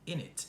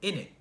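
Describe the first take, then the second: First: The final T sound is pronounced. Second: The final T sound is dropped. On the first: "they don't usually say in it" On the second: "They don't pronounce the T at the end"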